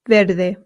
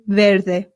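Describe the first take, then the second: The two takes are said the same way.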